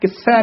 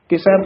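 First: The word is pronounced tightly and forcefully. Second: The word is pronounced softly and loosely. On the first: The speaker calls it wrong. "ਇਹਨੂੰ ਕਿਸੈ ਨਹੀਂ ਕਹਿਣਾ ਹੈ" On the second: The speaker calls it right. "ਪੋਲਾ ਹੀ ਉਚਾਰਨ ਕਰਨਾ ਹੈ"

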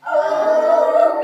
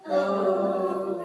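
First: It is said at a high pitch. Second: It is said at a low pitch.

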